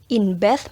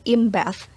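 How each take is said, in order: First: The word 'in' ends with an n sound. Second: The word 'in' ends with an m sound.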